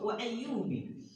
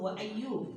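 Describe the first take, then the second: First: The name ends with an 'i' vowel. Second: The name ends with no final vowel. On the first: "dengan kasroh" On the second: "dengan sukun"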